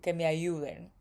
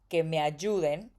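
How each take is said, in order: First: The Y sounds soft, almost like an I. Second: The Y is a strong, clear consonant. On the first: "the Y is kind of like an I" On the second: "in Mexico we say que me ayuden"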